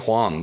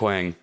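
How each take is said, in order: First: The name begins with an h sound. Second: The name begins with a plain w sound. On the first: The speaker calls it right. "it's actually Huang" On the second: The speaker calls it wrong. "everyone calls him Wang"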